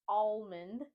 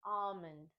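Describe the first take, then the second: First: Almond said ALL-mund; L wrongly pronounced. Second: Almond said AH-mund; silent L. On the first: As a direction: say almond with the L sounded. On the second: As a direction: say almond with no L at all. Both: Shown as a demonstration. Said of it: "we don't pronounce the L".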